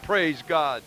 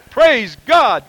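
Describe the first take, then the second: First: "Praise God" murmured low and soft; quiet echo. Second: "Praise God" called out high and loud. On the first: Quiet echo after loud praise. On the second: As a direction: shout "Praise God" to the congregation. Loud praise after shouting peak. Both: Real, not acted.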